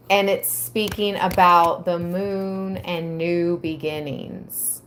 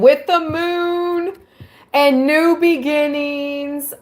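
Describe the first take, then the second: First: Said in the usual way. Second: Higher, louder, thrilled read-through; light up as the text hits the moon; excited reading. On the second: Real, not acted. Reading the tarot meaning to viewers, rising excitement.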